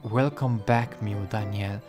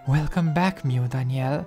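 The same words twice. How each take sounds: First: It is said in his normal voice. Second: It is said in a put-on Yuri voice.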